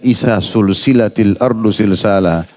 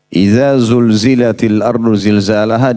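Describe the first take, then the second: First: The letters are pronounced with an S sound. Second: The letters are pronounced with a Z sound. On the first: The speaker calls it wrong. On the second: The speaker calls it right.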